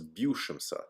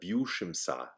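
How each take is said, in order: First: The final vowel is reduced to a schwa. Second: The final vowel is a full ah sound. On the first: The speaker calls it right. "my best guess is that this is" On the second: The speaker calls it wrong. "instead of"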